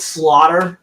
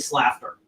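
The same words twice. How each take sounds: First: It rhymes with water, the usual way. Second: It sounds like laughter with an added s. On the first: "I know it's slaughter" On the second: "I just say it that way uh, because it's basically laughter with an F or with an S"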